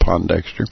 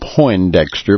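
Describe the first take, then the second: First: The first syllable has a plain 'o' sound. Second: The first syllable has an 'oy' sound. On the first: The speaker calls it right. "there's no I in Pondexter, and it's pronounced Pondexter" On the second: The speaker calls it wrong. "mispronouncing his name, calling him Poindexter"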